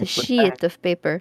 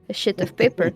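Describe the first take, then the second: First: The vowel in 'sheet' is long. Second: The vowel in 'sheet' is short. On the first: The speaker calls it right. "say sheet uh, the English way" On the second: The speaker calls it wrong. "in French, it's it's just shit"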